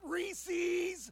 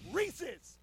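First: The ending has a long 'eez' vowel sound. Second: The ending has a short 'iz' vowel sound. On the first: The speaker calls it wrong. "It's not Reese's. You don't see multiple E's on the end of the word" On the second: The speaker calls it right. "It's Reese's"

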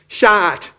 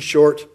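First: It is said in a Jamaican accent. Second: It is said in an American accent. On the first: "If you're Jamaican" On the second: "in a typical American pronunciation"

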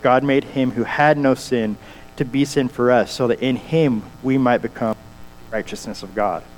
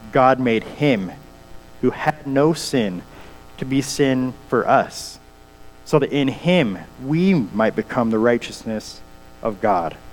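First: It is read at a normal pace. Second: It is read slowly and deliberately.

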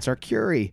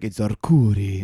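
First: It is said in a plain American accent. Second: It is said like an old Italian man.

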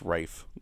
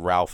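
First: The name is said without L, rhyming with 'safe'. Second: The name is said with an L sound, 'Ralf'. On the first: The speaker calls it right. "it's Rafe" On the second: The speaker calls it wrong. "it's not even Ralph"

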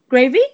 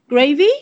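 First: The voice rises at the end of the word. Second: The same.

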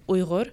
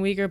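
First: The middle consonant is a throaty sound. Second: The middle consonant is a plain g sound. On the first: This is the speaker's own pronunciation. The speaker calls it right. "when I pronounce it, it's Uyghur" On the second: This is the common outside pronunciation. The speaker calls it wrong. "a lot of us kind of cringe when we hear the pronunciation Uyghur"

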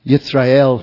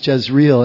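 First: The name is given its Hebrew pronunciation. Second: The name is given an anglicized reading. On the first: "would be the pronunciation in Hebrew" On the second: "as it would look"

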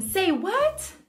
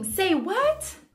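First: It is said in an exaggerated, dramatic way. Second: It is said in an exaggerated, dramatic way.

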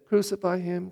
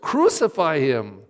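First: It is said flatly, like reading a report. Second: It is said with intense, owned emotion. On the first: The reader is only retelling what others said. The speaker calls it wrong. "don't say" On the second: The reader owns the words as their own cry. The speaker calls it right. "hear the words"

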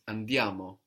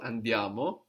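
First: It is said as a falling suggestion. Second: It is said as a rising question.

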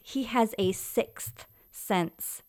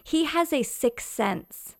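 First: The word 'sixth' is said with its final 'th' sound. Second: The word 'sixth' is said without its final 'th' sound. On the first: The speaker calls it right. "The correct way of saying it is" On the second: The speaker calls it wrong. "Nope, that's wrong"

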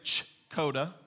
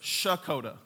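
First: The name begins with a ch sound. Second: The name begins with an sh sound. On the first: The speaker has never been to the place. The speaker calls it wrong. "like you're going to church, they're saying it wrong" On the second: The speaker has grown up in the place. The speaker calls it right. "like shh"

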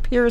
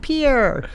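First: The name is pronounced the way locals say it. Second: The name is pronounced the way outsiders say it. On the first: The speaker knows the local usage. The speaker calls it right. "Yeah. Pierre, South Dakota" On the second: The speaker is not from South Dakota. The speaker calls it wrong. "You talk to anyone who isn't from South Dakota. Here's [name] from Pierre. Wrong"

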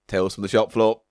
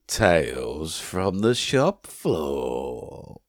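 First: It is said in a plain voice. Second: It is said in a smooth, sweet voice.

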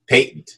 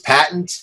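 First: It is said with a British pronunciation. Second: It is said with an American pronunciation.

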